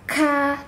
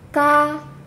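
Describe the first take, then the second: First: The k is followed by a heavy breathy puff. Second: The k is followed by a light breathy puff. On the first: The speaker calls it wrong. "hamesnya sampai ka, tidak" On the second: The speaker calls it right. "Ka terdengar hames sedikit, tapi tidak kita paksakan"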